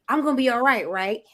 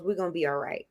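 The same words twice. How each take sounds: First: Seeking validation. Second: Quiet, low inner voice stating it calmly; inner reassuring voice. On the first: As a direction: turn it into a hopeful plea for approval. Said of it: "we come to someone and we say". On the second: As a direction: say it softly to yourself. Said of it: "that little voice goes". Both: Retold or imitated.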